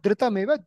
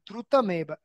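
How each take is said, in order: First: The first syllable has an i-like vowel. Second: The first syllable has a u-like vowel. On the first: The speaker calls it wrong. "It's not dhritameva" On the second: The speaker calls it right. "It's dhru, not dhr"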